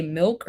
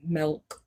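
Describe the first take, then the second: First: First MILK with a short IH vowel; standard pronunciation. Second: Second MILK with an EH vowel, like "melk"; variant pronunciation. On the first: Asking which way the listener says it, standard pronunciation. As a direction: say "milk" to rhyme with silk. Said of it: "Do you say milk". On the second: Offering the other way to say it, variant pronunciation. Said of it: "or do you say milk". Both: Shown as a demonstration.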